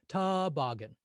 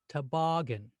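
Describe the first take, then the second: First: The first vowel is held longer than the others. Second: The second vowel is held longer than the others. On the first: The speaker calls it wrong. "What if we made the first vowel sound longer?" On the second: The speaker calls it right. "that second vowel sound sounds longer"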